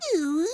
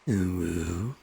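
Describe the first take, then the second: First: It is said in a high voice. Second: It is said in a deep voice.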